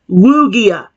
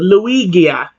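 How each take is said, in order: First: The name is said without a Luigi-like start. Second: The name is said starting like Luigi. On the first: The speaker calls it right. "It's Lugia" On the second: The speaker calls it wrong. "not Lu- uh, Luigia"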